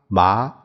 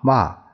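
First: The syllable is said with the second tone. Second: The syllable is said with the fourth tone. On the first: "这一二三四声" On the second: "这一二三四声"

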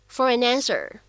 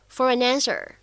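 First: The three words are linked together. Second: The three words are linked together.

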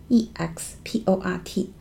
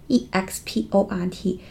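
The two takes are said the same way.

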